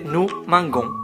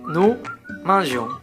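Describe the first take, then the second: First: The g is said hard, as in go. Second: The g is said soft, like a j. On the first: The speaker calls it wrong. "Si on ajoute O N S, la prononciation change" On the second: The speaker calls it right. "on ajoute aussi un E"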